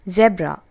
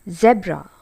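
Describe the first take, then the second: The two takes are said the same way.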